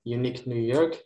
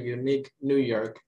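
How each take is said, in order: First: The phrase is said fast. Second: The phrase is said slowly. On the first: "Lalu faster, lebih cepat lagi"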